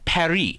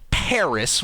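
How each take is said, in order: First: Paris is said with a French pronunciation. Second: Paris is said with an American pronunciation. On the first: "the French pronounce it as" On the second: "Americans pronounce Paris as"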